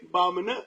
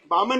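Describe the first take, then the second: First: The word is said with a contemptuous tone. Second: The word is said in a plain, neutral way.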